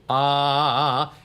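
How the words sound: A low, full chest voice. "Chest voice down in the bottom"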